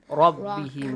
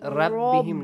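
First: The r sound is heavy and full. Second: The r sound is light and thin. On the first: The speaker calls it right. "it has a kind of attribute called elevating" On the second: The speaker calls it wrong. "not Rabbihim"

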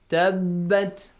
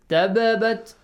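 First: The b sound is held as one doubled consonant. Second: The b sounds are split by an extra vowel. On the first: The speaker calls it right. "Because it has tashdid" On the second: The speaker calls it wrong. "you don't say tababat, no. Even it's wrong"

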